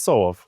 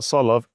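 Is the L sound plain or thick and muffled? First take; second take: thick; plain. First: The L sounds thick and muffled. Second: The L sounds plain and clear. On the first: The speaker calls it right. "it's Solov ... a lot of L's just sound like you've got hot potato in your mouth" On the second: The speaker calls it wrong. "It's not Solov"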